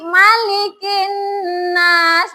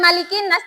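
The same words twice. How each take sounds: First: The n sound is held long before nas. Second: The n sound is short, not held. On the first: The speaker calls it right. "Ditahan dulu. Kenapa? Di sini ada tasdid" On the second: The speaker calls it wrong. "Bukan malikin nas"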